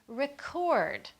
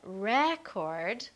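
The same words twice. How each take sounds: First: The stress is on the second syllable. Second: The stress is on the first syllable. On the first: It names an action, a verb. "we stressed the second part of the word" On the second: It names a thing, a noun. "where we stress the first part"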